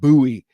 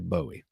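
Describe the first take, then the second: First: The name is pronounced the regional southern way. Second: The name is pronounced the everyday non-southern way. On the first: It matches how locals say the name. "because I thought it was more authentic" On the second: It is the speaker's own natural way. "I say Bowie"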